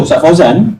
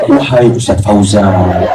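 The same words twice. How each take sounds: First: Fauzan lifted on a rising tune; rising call. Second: Slow, stately formal call with a laugh; formal classical address. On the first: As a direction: call the name with a rise on Fauzan. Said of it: "dia tekankan pada intonasi saja". (Fauzan diucapkan dengan nada naik) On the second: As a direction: address him like classical Arabic, slowly. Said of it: "level bahasa klasik memang tinggi". (panggilan formal klasik yang pelan sambil tertawa) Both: Shown as a demonstration.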